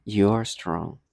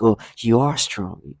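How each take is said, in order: First: This person's voice. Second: Slow, drawn-out mock condescension; mock condescending. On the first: Retold or imitated. Let me use this person's voice, lower and condescending. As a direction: lower take imitating someone condescending. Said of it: "let me use the, this person's voice". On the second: They say condescending things, imitated slowly and condescendingly. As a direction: imitate someone talking down, stretching the words. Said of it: "however condescending you're saying".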